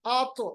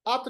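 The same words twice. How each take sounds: First: आत with its heavy t bounced as "ato"; qalqalah. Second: Said in the usual way. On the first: Shown as a demonstration. Teacher corrects learners, आत with echoed t. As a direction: pop the end of आत into an echo. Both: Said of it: "आत नहीं पढ़ेंगे".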